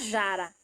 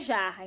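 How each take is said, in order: First: The R is a light single tap. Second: The R is a strong guttural sound. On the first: It would be spelled with one R. The speaker calls it wrong. "Se a gente colocar somente um R, vai ficar jara" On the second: It is spelled with two R's. The speaker calls it right. "a gente quer jarra"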